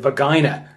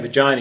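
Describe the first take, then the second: First: The word has a German-like accented pronunciation. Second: The word has a plain English pronunciation. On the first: "he said vagina" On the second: "he didn't say vagina"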